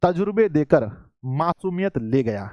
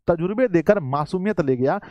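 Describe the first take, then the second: First: Shayari recital. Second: Said in the usual way. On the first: Real, not acted. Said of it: "बहुत ही प्यारी शायरी लिखी है". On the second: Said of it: "कहते हैं".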